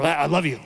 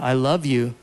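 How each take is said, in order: First: The voice sounds grumpy and dismissive. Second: The voice sounds warm and sincere. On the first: The speaker says it without caring. The speaker calls it wrong. "the grumpy, like out the door" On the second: The speaker means it kindly. The speaker calls it right. "I can give you the"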